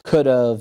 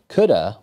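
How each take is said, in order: First: The phrase ends with a reduced v sound. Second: The phrase ends with a reduced uh sound. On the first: "We do actually pronounce these phrases could've" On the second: "Or sometimes even coulda"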